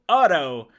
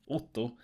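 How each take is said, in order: First: The name is said with American vowels. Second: The name is said with Swedish vowels. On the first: "or I can just go Otto" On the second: "if I say my name, ... don't understand which vowels I'm using"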